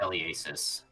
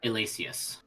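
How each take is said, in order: First: The name ends with a 'sis' sound. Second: The name ends with a 'see-us' sound. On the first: The speaker calls it right. "I'm pretty sure it's supposed to be pronounced" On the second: The speaker calls it wrong. "I am completely pronouncing that wrong"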